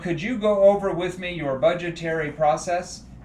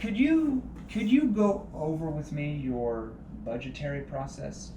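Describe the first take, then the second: First: The voice is stiff, like a scripted robot. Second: The voice is relaxed, calm and neutral. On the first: The speaker calls it wrong. "You don't want to sound like a scripted robot" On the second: The speaker calls it right. "Very relaxed, very calm, very neutral"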